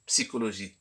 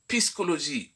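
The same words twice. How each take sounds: First: Psychologie said with a clean ps, psi-ko-lo-gie; "psychologie" with p then s, psikologie; correct pronunciation. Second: Psychologie said as pis-ko-lo-gie, the s before the p; wrong pronunciation. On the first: Teacher to online pupils, giving the right "psychologie" as psikologie. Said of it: "au lieu de". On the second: Teacher to online pupils, showing the common mistake "psychologie" pronounced piskologie. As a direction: swap the sounds: "psychologie" as piskologie. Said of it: "certaines personnes disent". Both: Shown as a demonstration.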